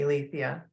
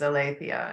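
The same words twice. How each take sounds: First: The name is said with modern Greek sounds. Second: The name is said with ancient Greek sounds. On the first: "the modern Greek pronunciation would be" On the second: "a sort of generic ancient Greek pronunciation"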